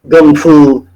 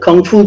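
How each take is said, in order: First: The first word starts with a soft G sound. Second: The first word starts with a hard K sound. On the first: This is the Cantonese form used by one martial arts community. "with a G" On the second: This is the form most people know. "with the K"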